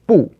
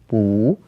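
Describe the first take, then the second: First: The syllable is said in the fourth tone. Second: The syllable is said in a changed tone. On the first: "normally in the fourth tone" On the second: "sometimes changes its tone"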